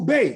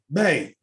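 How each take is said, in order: First: It sounds excited, with good news to share. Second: It sounds eager to share gossip.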